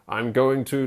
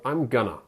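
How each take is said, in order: First: Every syllable of going to is said fully. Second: Going to is squeezed into two quick syllables. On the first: It sounds mechanical and unnatural in speech. The speaker calls it wrong. "makes you sound a bit like a robot" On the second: It sounds like normal everyday speech. The speaker calls it right. "most of the time you would say gonna"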